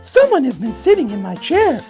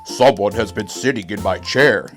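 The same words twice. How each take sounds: First: It is said in a middle-sized voice. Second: It is said in a great big voice.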